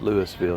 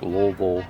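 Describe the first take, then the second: First: The city name is said the outsider way. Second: The city name is said the local way. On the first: The speaker sounds like they are from elsewhere. The speaker calls it wrong. "not Louisville" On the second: The speaker sounds like a local. The speaker calls it right. "you say it like Louisville"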